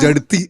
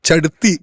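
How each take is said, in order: First: The word begins with a j sound. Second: The word begins with a ch sound. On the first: The speaker calls it wrong. "ജടുത്തി എന്നൊക്കെയാണ് പാടി" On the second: The speaker calls it right. "ചടുത്തി ആണ് മോള്"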